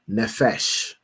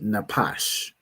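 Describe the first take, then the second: First: The middle consonant is an f sound. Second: The middle consonant is a p sound. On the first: The speaker calls it wrong. "pronounced his pa as a, as a fa, as an f, because he's a fool" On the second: The speaker calls it right. "But this word would be napash"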